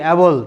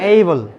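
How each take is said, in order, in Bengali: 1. প্রথম স্বরধ্বনিটি একটি ছোট, চ্যাপ্টা 'a' ধ্বনি। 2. প্রথম স্বরধ্বনিটি 'day'-এর 'ay'-এর মতো গড়িয়ে যায়। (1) "আমরা এতদিন বলতাম কি অ্যাবল" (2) "বাট এখন কি বলবো এইবল"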